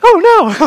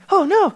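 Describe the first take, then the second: First: It is said in the diva's voice. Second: It is said in the bunny rabbit's voice.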